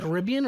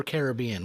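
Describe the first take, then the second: First: Caribbean with the stress on RIB; variant pronunciation of Caribbean. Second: Caribbean with the stress on BE; other pronunciation of Caribbean. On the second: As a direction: say Caribbean as care-ih-BEE-un. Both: Shown as a demonstration. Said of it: "What do you say?".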